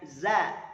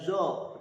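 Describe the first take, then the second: First: The letter is said with a thin, light sound. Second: The letter is said with a thick, heavy sound. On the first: The speaker calls it right. "un kan tipis Zaid za" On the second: The speaker calls it wrong. "tidak zo"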